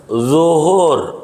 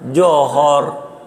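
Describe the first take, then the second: First: The word begins with a Z sound. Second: The word begins with a J sound. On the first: The speaker calls it right. "zo, bukan jin" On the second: The speaker calls it wrong. "Dia johor"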